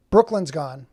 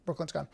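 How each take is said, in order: First: Louder, falling announcement of the news. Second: Softer, falling echo to yourself; quiet repeat. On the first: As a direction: call out that the viewer has left. Viewer left the chat. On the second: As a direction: say it again under your breath. Repeats it to himself. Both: Real, not acted.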